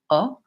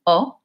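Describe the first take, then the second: First: The vowel stays a single steady sound. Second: The same.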